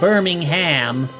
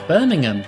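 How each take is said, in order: First: It is said in an American accent. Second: It is said in a British accent. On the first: The speaker calls it wrong. "how Americans say it" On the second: The speaker calls it right. "that's how you say it"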